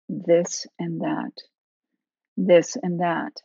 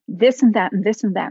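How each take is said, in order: First: It is said slowly in separate chunks. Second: It is said quickly and run together. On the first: "in a chunky way" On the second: "attention can oscillate very fast too"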